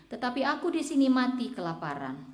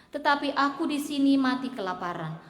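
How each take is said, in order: No difference in how they are said.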